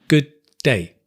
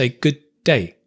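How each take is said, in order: No difference in how they are said.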